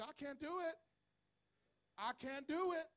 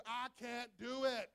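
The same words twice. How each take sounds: First: Said in the usual way. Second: Slow, firm and deliberate; said like a man. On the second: Shown as a demonstration. Preacher showing the congregation how to say it, firm. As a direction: say it like you mean it, man. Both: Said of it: "you didn't say it like a man".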